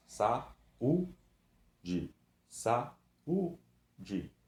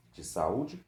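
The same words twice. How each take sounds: First: "Saúde" louder, ú split off; syllables apart. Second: "saúde" with the ú stressed apart; separating syllables. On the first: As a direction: hit the ú clearly. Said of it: "o U tá separado". ("Saúde" com o "ú" separado e forte) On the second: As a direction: split sa-ú-de. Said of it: "Eu tenho o A e eu tenho o U". ("saúde" separando o "ú") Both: Shown as a demonstration.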